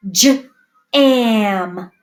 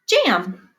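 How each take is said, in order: First: J-am with a break after j; sounded out. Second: Said in the usual way. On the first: Shown as a demonstration. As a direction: split jam into j then am. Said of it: "first sound green". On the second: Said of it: "Let's do jam".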